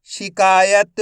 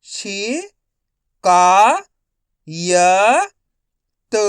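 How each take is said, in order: First: शिकायत joined up, emphatic; शिकायत in one unbroken piece; blended whole word. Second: शि, का, य, त as separate stretched sounds; syllable by syllable. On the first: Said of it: "तो मिलके बन जाएगा". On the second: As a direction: sound out शिकायत one syllable at a time. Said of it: "एक अक्षर का उच्चारण करके". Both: Shown as a demonstration.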